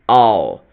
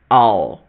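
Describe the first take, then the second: First: One short reduced syllable is said. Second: The same.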